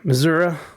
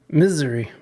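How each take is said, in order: First: The word has a clear 'zoo' middle syllable. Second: The word sounds like the word misery. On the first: "I like Missouri better" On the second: "I like to pronounce it like mis- misery"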